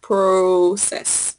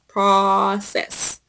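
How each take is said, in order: First: The first vowel is not a short O. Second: The first vowel is a short O sound. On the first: The speaker calls it wrong. "not process" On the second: The speaker calls it right. "the pronunciation is process, ... like a short O sound"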